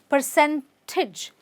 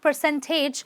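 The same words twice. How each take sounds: First: The last syllable has a short 'ih' vowel. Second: The last syllable has a full 'ay' vowel. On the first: The speaker calls it right. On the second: The speaker calls it wrong.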